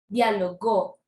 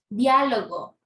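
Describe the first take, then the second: First: The stress is on the last syllable. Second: The stress is on the first syllable.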